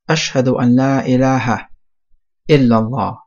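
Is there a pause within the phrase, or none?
pause. There is a pause before illallah. It testifies that there is no deity. The speaker calls it wrong. "to stop at"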